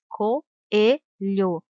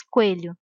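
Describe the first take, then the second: First: Coelho very slowly, co-e-lho, each vowel separate; correct pronunciation. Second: Coelho with o and e run together; wrong pronunciation. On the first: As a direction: stretch coelho out, keeping the o and e apart. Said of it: "se diz". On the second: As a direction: squeeze the o and e of coelho into one syllable. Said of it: "Não se diz". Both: Shown as a demonstration.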